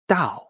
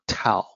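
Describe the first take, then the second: First: The word begins with a soft D sound. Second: The word begins with a sharp T sound. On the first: The speaker calls it right. "It is supposed to be Dao" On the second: The speaker calls it wrong. "not Tao"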